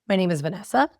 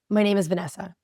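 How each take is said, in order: First: The voice rises at the end like a question. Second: The voice falls at the end like a statement. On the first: The speaker sounds unsure and invites scrutiny. "Then they had them add question inflections to those statements" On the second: The speaker sounds sure of herself. "They had people listen to statements"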